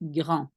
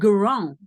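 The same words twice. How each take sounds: First: The R is a soft, light throat sound. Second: The R is an English-style R, not in throat. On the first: The speaker calls it right. "it's very soft. So it will more sound like grand" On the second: The speaker calls it wrong. "not the grand"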